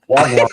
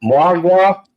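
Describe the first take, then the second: First: Wagwan copied as "wahg-wahn", without the M; attempted Jamaican. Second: Mwagwa asked as "mah-gwah", final N missing; higher, questioning Mwagwa, unsure of the word; mispronounced Patois. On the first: Shown as a demonstration. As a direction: proudly try out Wagwan as just taught. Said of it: "now I can speak Jamaican". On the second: Real, not acted. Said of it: "I'm probably saying it wrong".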